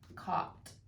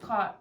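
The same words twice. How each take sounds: First: It is said slowly. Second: It is said very fast.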